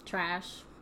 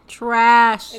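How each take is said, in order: First: It is said at normal, quieter volume. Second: It is said louder.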